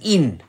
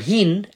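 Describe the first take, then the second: First: The word begins without an h sound. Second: The word begins with an h sound.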